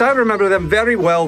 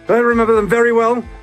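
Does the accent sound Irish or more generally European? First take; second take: European; Irish. First: The accent drifts toward a general European sound. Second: The accent sounds like an Irish accent. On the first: The speaker calls it wrong. "too much Europe" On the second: The speaker calls it right. "Irish accented peasant"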